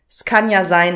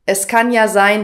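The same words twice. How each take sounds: First: Sounds are dropped and words run together. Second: Every word is pronounced clearly and in full.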